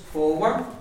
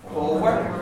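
First: The word is said as two syllables. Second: The same.

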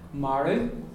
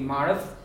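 First: The word is said in a non-Munster pronunciation. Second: The word is said in a Munster pronunciation.

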